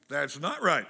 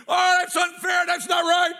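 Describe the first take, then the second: First: Said in the usual way. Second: Much higher, loud outraged yell; loud cry of "that's not right" at the wrestling; teenage yelling at TV. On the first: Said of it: "And I was right". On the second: Retold or imitated. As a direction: shout at the screen like a wronged young fan.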